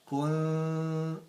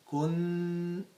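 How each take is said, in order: First: The n is a hidden nasal with the tongue low. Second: The n is a full, lengthened n with the tongue raised. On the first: The speaker calls it right. "the correct way is kuntum. Kun. I am trying to put my tongue down" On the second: The speaker calls it wrong. "they do it this way. Kun. They go to the regular, like they pronounce a regular noon, but they give it extra time"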